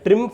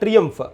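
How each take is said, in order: First: The word is said in a shortened form. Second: The word is said the standard English way. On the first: "ట్రింఫ్ అనొచ్చు" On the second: "English pronunciation ప్రకారం ట్రియంఫ్ అని వస్తుంది"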